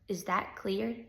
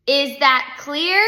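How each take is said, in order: First: Restrained teacher's warning; quiet warning. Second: Loud, slow, higher question; forceful teacher demanding agreement; insistent repeat. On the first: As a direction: drop the volume on the question. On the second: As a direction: spell it out slowly and loudly. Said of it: "she asked again". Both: A narrator's reading.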